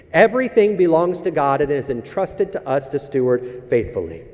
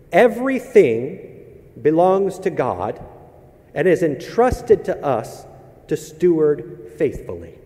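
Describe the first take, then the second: First: Said in the usual way. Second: Each phrase slow and weighty, EVERYTHING stressed; slow emphatic premise. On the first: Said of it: "premise repeated". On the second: Shown as a demonstration. Pastor stating the sermon premise, slow and emphatic. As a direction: lean on "Everything" and "entrusted", stretched out. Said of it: "restates premise".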